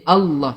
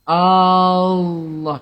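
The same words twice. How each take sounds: First: The first vowel is said short. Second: The first vowel is drawn out long. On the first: The speaker calls it right. "A tu kena pendek" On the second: The speaker calls it wrong. "Siapa yang baca A tu panjang pun tak sah"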